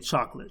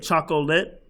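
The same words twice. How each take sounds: First: The word is said with two syllables. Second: The word is said with three syllables. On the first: The speaker calls it right. "We say chocolate. So that would be two" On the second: The speaker calls it wrong. "you may want to break up, say chocolate"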